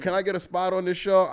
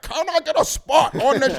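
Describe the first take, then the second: First: It is said in an ordinary speaking voice. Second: It is said in an imitated villain voice. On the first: The request gets brushed off. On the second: The request is taken seriously.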